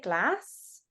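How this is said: Glass is said in a Liverpool accent. "the Beatles, because they're from Liverpool, say glass"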